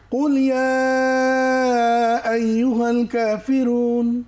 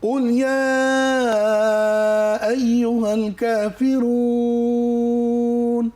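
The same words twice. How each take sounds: First: The last long vowel is held only briefly. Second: The last long vowel is drawn out at length. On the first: The speaker calls it wrong. "এভাবে থামবো না" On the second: The speaker calls it right. "তিন আলিফ"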